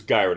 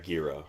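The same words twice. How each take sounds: First: Gyra said as GUY-ruh; pronunciation demo. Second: Gira with a different first vowel from "guy"; Gira, opening like "gear"; pronunciation demo. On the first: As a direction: say Gyra with a long "eye" in the first syllable. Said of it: "not Gira". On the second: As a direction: say Gira as the rejected reading, GEER-uh. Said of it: "I believe it's Gyra". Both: Shown as a demonstration.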